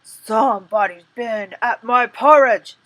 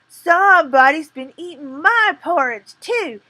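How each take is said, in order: First: It is said in a rough, gruff bear voice. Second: It is said in a medium, middle-sized voice.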